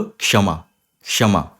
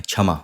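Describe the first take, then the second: First: क्षमा said kshama, a light k before a strong sh; क्षमा with a little k, mostly sh; right kshama. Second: क्षमा said as chhama, with a plain chh sound; wrong chhama. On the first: Teacher models the correct kshama. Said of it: "इसको आप बोलोगे क्षमा". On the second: Teacher shows the common wrong chhama. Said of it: "कुछ लोग क्षमा बोलते हैं". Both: Shown as a demonstration.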